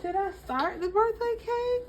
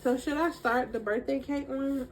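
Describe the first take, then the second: First: High-pitched. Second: Said in the usual way. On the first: Real, not acted. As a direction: question asked much higher. Repeats the question to viewers.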